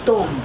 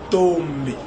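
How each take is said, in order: First: The m merges into a nasal vowel. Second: The m is joined to the following b. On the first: It is how foreign speakers say it. "les blancs ont tendance à ramener M vers O pour donner la voyelle nasale" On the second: It is how native speakers say it. "nous avons tendance à ramener M vers B pour donner le complexe anasal"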